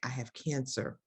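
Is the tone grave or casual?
grave. It is said in a grave, serious tone.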